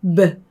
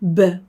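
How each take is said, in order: First: Only a faint vowel follows the consonant. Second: Only a faint vowel follows the consonant.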